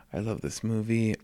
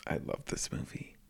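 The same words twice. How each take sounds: First: Said in the usual way. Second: Soft breathy whisper. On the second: Real, not acted. Whispered then repeated.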